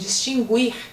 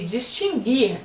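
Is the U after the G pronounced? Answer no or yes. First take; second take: yes; no. First: The U after the G is pronounced. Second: The U after the G is silent. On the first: The speaker calls it wrong. "Muitas pessoas falam distinguir e essa forma não existe" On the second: The speaker calls it right. "assim é o correto. Nesse caso é dígrafo"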